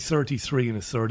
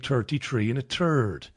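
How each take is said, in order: First: The 'th' sounds are fully pronounced as 'th'. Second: The 'th' sounds are said like plain 't'. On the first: This is the pronunciation Irish speakers don't use. "We don't say" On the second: This is the usual Irish pronunciation. "Irish people say"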